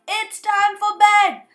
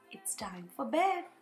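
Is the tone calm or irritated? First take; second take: irritated; calm. First: It is said irritably and impatiently. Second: It is said calmly and reassuringly.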